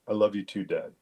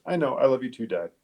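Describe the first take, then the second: First: Measured, understated reply in a level pitch; grown-up sincerity. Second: Said in the usual way. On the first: Retold or imitated. Son answering dad's goodbye on the phone, grown-up and sincere. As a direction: answer soberly, like a small adult. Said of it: "like I was talking to an adult".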